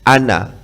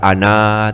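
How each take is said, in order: First: The final vowel is short. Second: The final vowel is drawn out long. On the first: The speaker calls it right. "alifnya itu tidak dipanjangkan" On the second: The speaker calls it wrong. "tidak dibaca ana, tidak begitu"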